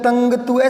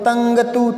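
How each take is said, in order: No difference in how they are said.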